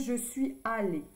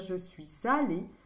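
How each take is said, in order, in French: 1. « Suis » et « allée » se disent séparément, sans liaison. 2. « Suis » se lie à « allée » avec un son z. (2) "c'est plus joli de dire"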